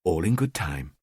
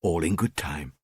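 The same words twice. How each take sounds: First: Low soft self-assurance; told to himself. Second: Lower, softer repeat; repeated to himself. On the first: Killer to himself, low soft murmur. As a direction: murmur it to yourself, calming down. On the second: Killer to himself, softer murmured repeat. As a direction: say it again even softer to yourself. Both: Acted. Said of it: "I told myself".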